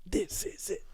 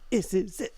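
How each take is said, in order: First: Breathy near-whisper, in awe; hushed echo. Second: Said in the usual way. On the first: Real, not acted. Echoing the host's line to build the hype, hushed. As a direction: echo it back under your breath.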